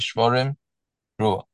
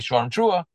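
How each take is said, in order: First: There is a long pause between the words. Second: There is a short pause between the words. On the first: The blower should clearly break between the blasts. "if they really want to break" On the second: The blower should leave a space between the blasts. "when they want the baal tekeah to leave a space in between"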